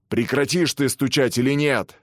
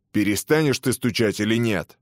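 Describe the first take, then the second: First: Louder, higher warden's roar; thundering. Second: A touch of impatience, mildly voiced; irritated warden. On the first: Acted. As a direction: bellow the demand at him. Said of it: "загремел он". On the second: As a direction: press him, only mildly annoyed. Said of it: "спросил начальник тюрьмы".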